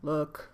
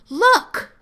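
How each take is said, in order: First: It is said in a lower, plain voice. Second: It is said in a high, excited voice. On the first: The dog is encouraged to keep its distance. The speaker calls it wrong. "Rather than" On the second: The dog is invited to come closer. The speaker calls it right. "I call it my dog sexy voice"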